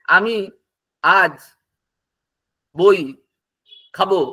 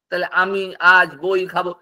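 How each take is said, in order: First: Each word dropped separately with long pauses; words spaced apart. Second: Said in the usual way. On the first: Shown as a demonstration. Teacher spacing out আমি আজ বই খাবো to show loose words. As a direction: lay the words down one at a time, gaps between. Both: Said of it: "পাশাপাশি বসিয়ে দিলেই".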